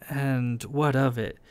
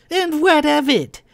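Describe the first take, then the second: First: Said in the usual way. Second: High, loud mimicry of a Howe accent; mocking Howe accent. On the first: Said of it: "mocking Verlin's Howe accent". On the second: A narrator's reading. Kai mocking Verlin's words, exaggerated Howe accent. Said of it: "Kai said in mocking Verlin's Howe accent".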